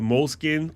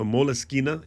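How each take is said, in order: First: The word ends on the n sound. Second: The word ends with an extra vowel. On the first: The speaker calls it wrong. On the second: The speaker calls it right.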